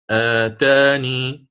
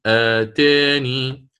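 First: Slow آتاني with open long aa; open fath reading. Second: Slow آتاني with the middle aa tilted to "eh"; taqlil reading. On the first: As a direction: draw out آتاني as "aataanii". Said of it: "الفتح مقدم أداء". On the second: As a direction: draw out آتاني as "aateenii". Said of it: "سيكون فيها التقليب بهذه الطريقة". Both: Shown as a demonstration.

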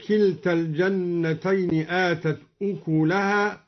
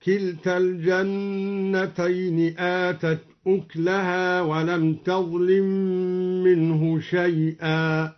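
First: Said in the usual way. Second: Slow chanted recitation, أكلها said uklaha with no vowel on k; silent-vowel kaf. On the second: Shown as a demonstration. Teacher demonstrating al-Duri's reading, slow tartil with sukun in أكلها. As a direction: chant it slowly, closing the k in أكلها. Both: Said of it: "سكن الدوري الكاف تخفيفا هكذا".

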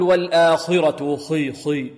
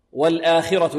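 First: Slow والآخرة with a thick, backed, darkened khi; over-heavy kha. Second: والآخرة with khi only slightly heavy, a clear i; lightly heavy kha. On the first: Teacher shows what we don't say, خي far too heavy. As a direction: swallow the i of خي into a heavy dark sound. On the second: Teacher models والآخرة, khi at the lowest heaviness. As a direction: keep the i of والآخرة clean after kha. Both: Shown as a demonstration. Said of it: "لا نقول".

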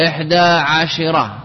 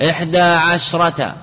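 First: عشرة with a clear "shi" in the middle; shin with kasra. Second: عشرة with the sh closing its first syllable; silent shin. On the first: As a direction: say عشرة as "ʿa-shi-ra", short "i" after sh. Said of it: "تكسر عشرة". (نطق عشرة بكسر الشين) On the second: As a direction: say عشرة as "ʿash-rata", no vowel after sh. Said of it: "تسكين الشين". (نطق عشرة بتسكين الشين) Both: Shown as a demonstration.

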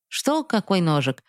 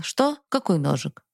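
First: Mocking imitation. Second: Trembling answer. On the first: Father mocking his son's feigned ignorance, taunting mimicry. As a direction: parrot the kid back at him, sneering. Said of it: "передразнил меня отец". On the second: Acted. Boy frightened, answering father's question about the knife, trembling. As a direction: answer meekly, voice catching with fear. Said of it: "и я с дрожью ответил".

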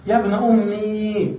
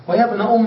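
First: "أمي" with a long drawn-out ee; added long ya. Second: "أم" said "ummaa", long final a; ya turned alif. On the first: Teacher showing the rarer form with added ya, long ee. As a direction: stretch the final i of "أمي" slowly. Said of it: "بزيادة الياء". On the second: Teacher showing the ya turned into alif, long aa. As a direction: stretch an open aa after "أم". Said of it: "بقلب الياء ألفا". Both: Shown as a demonstration.

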